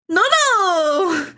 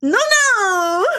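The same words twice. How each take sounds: First: High, louder laughing shout; mock delighted cry; imitating Parasi. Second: High, louder delighted cry; imitating Parasi again. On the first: Imitating Parasi seeing him in chat, high laughing shout. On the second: Imitating Parasi seeing him in chat, high delighted cry. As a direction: ham up her happy shriek. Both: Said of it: "That's how she does it".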